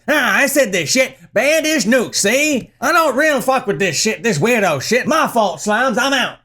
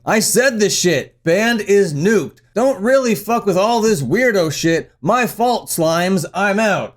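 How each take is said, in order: First: Mock gangster patter, pitched up; thirties gangster. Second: Said in the usual way. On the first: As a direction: do a hammed-up 1930s mobster. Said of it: "Are you a fucking gangster from the thirties". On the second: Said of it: "The bassist posts the following".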